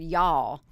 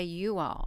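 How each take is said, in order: First: "y'all" as one syllable, yawl; contracted y'all. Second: "you all" as two separate words; uncontracted you all. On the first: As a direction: run "y'all" together as one word. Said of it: "I don't like to say the word y'all". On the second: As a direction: keep the "you" whole in "you all". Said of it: "that's my dialect for the English language". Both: Shown as a demonstration.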